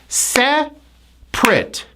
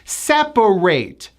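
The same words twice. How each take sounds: First: It has two syllables with a reduced ending. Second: It has three syllables, ending in a full A. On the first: Things are not together. "It's now two syllables" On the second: To pull things apart. "it's the A sound"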